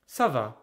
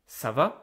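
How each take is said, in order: First: The pitch falls at the end. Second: The pitch rises at the end. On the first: It answers that one is fine. "so I'm giving an answer, I will say" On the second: It asks how someone is doing. "you can hear my voice is going up"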